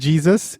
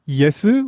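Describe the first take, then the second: First: It begins with a J sound. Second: It begins with a Y sound. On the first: "instead of pronouncing it Jesus" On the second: "it's Yesu"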